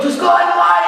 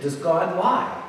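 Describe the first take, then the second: First: High, loud mock demand; comically frantic question; worked-up challenge. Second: Soft, slow question; gentle questioning. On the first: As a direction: throw the question out at full pitch. Same question, now high and loud. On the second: Retold or imitated. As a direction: imitate a preacher quietly leading the boy on. Preacher gently questions the boy.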